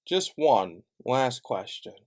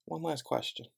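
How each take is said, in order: First: Drawn out, each word weighed; slow, pointed repeat; slow and deliberate. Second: Said in the usual way. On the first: Real, not acted. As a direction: stretch it out for emphasis.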